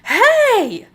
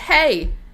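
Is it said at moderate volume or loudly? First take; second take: loudly; moderate volume. First: It is shouted loudly. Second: It is said at a moderate volume.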